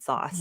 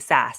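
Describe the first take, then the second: First: The vowel is long, as in 'sauce'. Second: The vowel is short, as in 'sass'. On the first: This is how the speaker would naturally say it. "I would have said sauce" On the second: This is how the term is usually said. "It feels less uh, organic to say sass"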